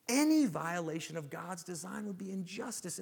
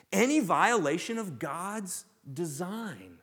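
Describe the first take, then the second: First: Said in the usual way. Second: "Any violation of God's design" said slowly and louder, each word weighted; slow emphatic definition. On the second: Shown as a demonstration. Pastor stressing the definition to the congregation, slow and emphatic.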